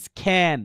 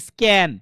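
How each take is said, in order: First: স্ক্যান with a breathy kh, as "iskhan"; স্ক্যান mispronounced with খ in place of k; wrongly aspirated k. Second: স্ক্যান with a plain hard k, no puff of air; crisp স্ক্যান, k kept tight without breath; unaspirated k. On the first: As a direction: puff air after the k in স্ক্যান. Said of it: "এই সব জায়গায় খ লাগাই দিব". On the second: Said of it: "এটাকে ভুলেও বলা যাবে না". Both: Shown as a demonstration.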